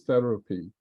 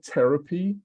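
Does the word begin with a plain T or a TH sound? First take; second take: TH; plain T. First: It begins with a TH sound. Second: It begins with a plain T sound. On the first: The speaker calls it right. "it should be actually therapy" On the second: The speaker calls it wrong. "when you said therapy"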